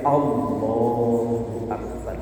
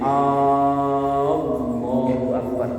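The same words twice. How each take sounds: First: The first vowel of Allahu is kept short. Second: The first vowel of Allahu is drawn out long. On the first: It states that God is the greatest. The speaker calls it right. "A-nya harus pendek" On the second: It asks whether God is the greatest. The speaker calls it wrong. "salah total, salah besar"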